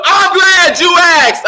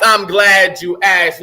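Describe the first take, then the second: First: High, loud, drawn-out exclamation; hammed-up excited answer. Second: Said in the usual way. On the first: Announcer answering his own planted question, hammed-up and excited. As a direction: burst out high and loud, stretching it.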